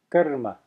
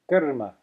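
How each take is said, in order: First: It has a short uh and tapped r. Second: It has a short uh and tapped r.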